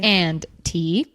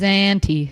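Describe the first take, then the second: First: Each sound is crisply and fully articulated. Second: The words are run together casually and quickly. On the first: "you enunciated the crap out of it" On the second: "usually it's always"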